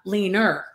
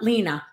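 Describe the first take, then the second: First: The name ends with an added r sound. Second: The name ends in a plain vowel, no r. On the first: This is how a New Yorker mispronounced the name. The speaker calls it wrong. "she called me, ... Leaner" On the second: This is the name as it should be said. The speaker calls it right. "not Lena"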